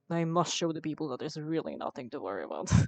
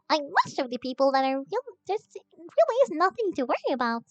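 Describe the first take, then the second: First: It is said in a serious, earnest way. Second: It is said in a silly, playful way. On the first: "go from that to like" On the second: "be silly with it and be like"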